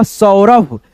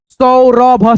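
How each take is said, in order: First: Said in the usual way. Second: Saurabh split as सौ, र, भ with each vowel sounded; careful teaching version of Saurabh; syllable-by-syllable reading. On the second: Shown as a demonstration. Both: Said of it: "औ की ध्वनि निकालेंगे".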